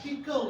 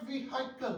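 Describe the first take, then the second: First: व्हीकल said with a silent h, "vee-kal"; right pronunciation. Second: व्हीकल said with a sounded h, "vi-hai-kal"; wrong pronunciation. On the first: Teacher models the correct व्हीकल for parents. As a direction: say व्हीकल cleanly without the h. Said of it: "ये नहीं है, ये व्हीकल है". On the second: Teacher demonstrates the wrong व्हीकल to parents. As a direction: show the common mistake in व्हीकल. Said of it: "लोग इसको गलत pronounce करते हैं". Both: Shown as a demonstration.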